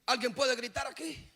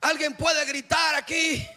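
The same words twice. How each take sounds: First: Said in the usual way. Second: Louder, pushing the crowd on "gritar"; asked again with more force on "gritar"; louder call. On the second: Shown as a demonstration. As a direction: call out to the congregation to shout. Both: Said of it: "No, no han gritado".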